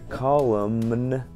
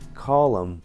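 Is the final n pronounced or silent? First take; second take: pronounced; silent. First: The final n is pronounced. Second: The final n is silent. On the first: The speaker calls it wrong. "Вместо column, как колонна" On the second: The speaker calls it right. "нужно говорить"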